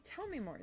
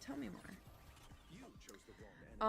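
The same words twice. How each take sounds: First: Said in the usual way. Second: Very slow, softer theatrical plea; drawn-out hushed tell me more; dramatic drawl. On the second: Acted. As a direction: stretch it out like a mock-dramatic request. Drawn-out repeat of the request.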